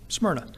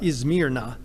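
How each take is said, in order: First: The name begins directly with an s sound. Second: The name begins with an added vowel sound. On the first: This is the form used in the text. "but it's Smyrna" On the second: This is how a local speaker says it. "The Turks pronounce it differently. It comes out Izmirna"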